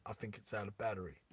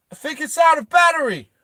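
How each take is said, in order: First: Said in the usual way. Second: High, loud shouted quip; loud comic call. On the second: Acted. [name] looks back at Hammy, high loud quip. [name]'s acted comment to Hammy.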